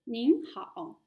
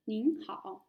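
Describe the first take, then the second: First: "Ning hao" with a nasal ning, falling; polite nin hao. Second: "Ning hao" with ning rising at the end; polite nin hao. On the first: ("Ning hao" prononcé poliment, ning appuyé) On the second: ("Ning hao" avec ning montant) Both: Shown as a demonstration. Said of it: "C'est pour quelqu'un de senior".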